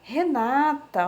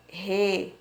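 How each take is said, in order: First: Said in the usual way. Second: "Renata" split into re... na... ta; pauses inside "Renata", each syllable alone. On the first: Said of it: "nome que eu descobri". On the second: Shown as a demonstration. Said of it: "dentro desses quadros tem sílabas".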